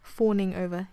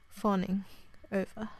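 First: "Fawning" with a long rounded aw, like "forning"; louder Australian "Fawning over", long closed AW; Australian vowel. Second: "fawning" with an open ah, like "fahning"; American "fawning over", unrounded first vowel. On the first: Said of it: "You see that? There's a different". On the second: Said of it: "There's a different, different thing again". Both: Shown as a demonstration.

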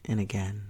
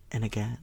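The two takes are said the same way.

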